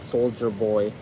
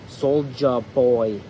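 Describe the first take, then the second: First: The first word is said like standard 'soldier'. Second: The first word is said like the rapper's 'Soulja'. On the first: The speaker calls it wrong. "not Soldier Boy" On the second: The speaker calls it right. "it's pronounced Soulja Boy"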